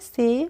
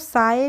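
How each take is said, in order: First: The vowel sounds like 'ay'. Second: The vowel sounds like 'eye'. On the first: The speaker calls it right. "इसको पढ़ेंगे से" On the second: The speaker calls it wrong. "इसको साए नहीं पढ़ने की कोशिश कीजिए"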